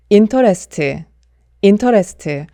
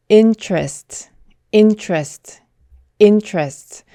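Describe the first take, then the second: First: Interest as in-to-res-tu, Korean vowels; syllable-by-syllable interest. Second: Interest as in-chrest, tr like ch; interest, two syllables, slow first take; native interest. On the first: Teacher showing the common Konglish interest. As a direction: interest with an added final uh. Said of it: "이렇게 발음을 하게 되죠". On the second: Teacher modelling native interest. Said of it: "이렇게 발음해 주셔야 합니다". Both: Shown as a demonstration.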